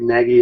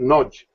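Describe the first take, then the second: First: It is not said with an O vowel and J. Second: The vowel is an O sound, ending in J. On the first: The speaker calls it wrong. "Even though it looks like Nagy, I get Nagy" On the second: The speaker calls it right. "the A is always pronounced as a O sound... The G Y is a J"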